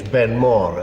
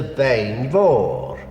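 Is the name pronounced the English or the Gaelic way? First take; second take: English; Gaelic. First: The name is said with English pronunciation. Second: The name is said with Gaelic pronunciation. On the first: "in English, Benmore is a perfectly good pronunciation" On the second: "In Gaelic, it is a Bain Vor"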